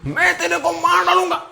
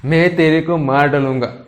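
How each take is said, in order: First: Very high, put-on giggly threat; mock laughing threat. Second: Mildly angry threat, barely raised; mock anger. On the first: Teacher showing a threat made while laughing, high mock-laughing voice. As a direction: make the threat in a much higher, silly voice. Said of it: "हंसते हंसते". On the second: Teacher demonstrating an angry threat to students, mildly angry. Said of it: "मैं गुस्से में हूँ". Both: Shown as a demonstration.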